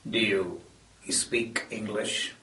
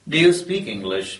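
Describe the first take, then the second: First: The consonant clusters are broken up, Hindi-influenced. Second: The consonant clusters are said in standard English.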